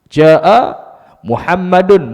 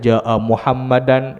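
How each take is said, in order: First: The name ends with a u-vowel plus n. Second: The name ends with an a-vowel plus n. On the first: The speaker calls it right. "mesti baca dengan baris dhammah" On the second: The speaker calls it wrong. "tapi tak betul di sudut kaedahnya"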